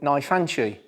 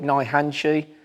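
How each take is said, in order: First: The second part starts with an f sound. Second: The second part starts with an h sound. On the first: This is the Okinawan form, closer to the Chinese. "the Nai Fanchi pronunciations tend to be the Okinawan ones" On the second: This is the more Japanese-sounding form. "it became Nai Hanchi, maybe made a little bit more Japanese sounding"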